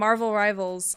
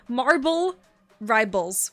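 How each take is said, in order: First: The first word is said with a v sound. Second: The first word is said with a b sound. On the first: The speaker calls it right. "I have to think about it" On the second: The speaker calls it wrong. "with B's"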